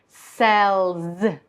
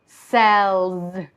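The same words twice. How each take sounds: No difference in how they are said.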